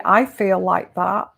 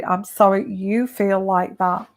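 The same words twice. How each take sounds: First: "I" leaned on as the key word; wrong way, pressing the word "I"; stress on I. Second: "you" leaned on, not "I"; right way, pressing the word "you"; stress on you. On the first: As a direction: put the weight on "I" in "I feel like that". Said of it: "Don't say". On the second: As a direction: put the weight on "you" in "I'm sorry you feel like that". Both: Shown as a demonstration.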